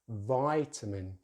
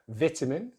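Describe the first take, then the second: First: The first vowel is the 'eye' diphthong. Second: The first vowel is a short 'i'. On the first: "American English, vitamin" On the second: "British English, vitamin"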